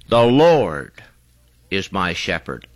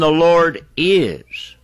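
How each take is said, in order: First: The stress is on "Lord". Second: The stress is on "is".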